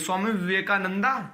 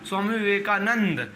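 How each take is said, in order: First: The name ends with an added final 'a' vowel. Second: The name ends on 'nd' with no vowel. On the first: The speaker calls it wrong. "ए लगा भी रहता है। ... यह तो नहीं ना सही है।" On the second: The speaker calls it right. "तो अब इसको क्या बोला जाएगा?"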